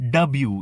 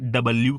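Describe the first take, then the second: First: The L sound is left out. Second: The L sound is clearly pronounced. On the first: "ઘણા લોકો લનો ઉચ્ચાર નથી કરતા" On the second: "આપણે ડબલ્યુ કહીએ છીએ"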